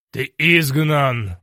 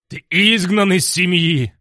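First: Loud, slow and heavy verdict; loud stern sentence. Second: Loud, high furious bark; barking fury. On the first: Dargon banishes the hero, slow and loud. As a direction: pronounce the banishment slowly and loud. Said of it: "раздался голос позади". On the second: Dargon Quint barks banishment at the hero, furious. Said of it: "рявкнул он". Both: A narrator's reading.

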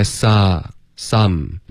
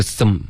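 First: "sa，some" with a wide open ah-like vowel, slowly. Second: "some" with a small, swallowed vowel; closed-vowel mispronunciation. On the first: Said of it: "嘴巴张开". (“sa，some”张开嘴，元音饱满) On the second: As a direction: mimic a learner barely opening "some". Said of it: "不是some". (模仿错误发音，“some”元音太闭) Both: Shown as a demonstration.

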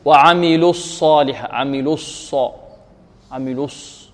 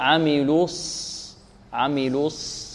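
First: الص said with lips kept rounded; wrongly rounded sad. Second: عملوا with rounded lips, released for الص; slow عملوا, then relax the lips on a held ص; correct unrounded sad. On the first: Teacher shows what not to say, rounded sad. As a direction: keep the lips pursed from لو into الص. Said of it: "لا نقول". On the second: Teacher corrects, slow and soft unrounded sad. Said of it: "لا". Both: Shown as a demonstration.

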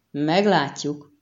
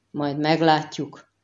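First: Slow, drawn-out earnest echo; serious agreement. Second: Slow, understated grumbling reply; mild growled retort. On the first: Prefect echoing the girl's retort, gravely. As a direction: agree gravely, stretching the word out. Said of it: "helyeselt komolyan Fulkó". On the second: Girl answering the prefect's taunt, mildly growled. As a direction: grumble it back slowly, without raising the voice. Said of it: "mordult fel a lány". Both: A narrator's reading.

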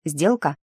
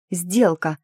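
First: Said in the usual way. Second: Happy, eager agreement; beaming. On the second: A narrator's reading. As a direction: seal the deal with mild delight. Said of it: "просияла гномка".

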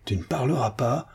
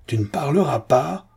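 First: Contained exasperation, rising at the end; a first, held-back threatening question; exasperated. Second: High, insistent, exasperated demand. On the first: (exaspération contenue) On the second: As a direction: press the threat harder, rising on PARLERAS. (exaspéré, voix qui monte) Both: A narrator's reading. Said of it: "Exaspéré".

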